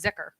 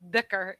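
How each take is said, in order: First: The word begins with a z sound. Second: The word begins with a th-like sound. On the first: This is the Pakistani way of saying it. "if you are Pakistani, you know it as zikr" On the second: This is how some Arabic dialects say it. "in some dialects of Arabic, dhikr is just fine"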